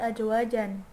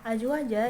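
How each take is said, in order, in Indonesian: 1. Kata itu berakhir dengan bunyi n yang ditambahkan. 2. Kata itu berakhir dengan vokal a panjang. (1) "dibacanya tidak menjadi ajwajan" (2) "ajwaja itu salah satu contoh e, mad iwad"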